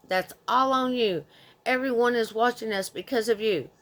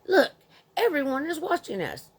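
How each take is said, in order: First: Mock angry mother. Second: Higher, sharp scolding of the child in a mild imitation; mock angry mother. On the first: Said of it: "And again, with". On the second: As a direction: nag the child to stop making a scene. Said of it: "this woman was getting on my nerves".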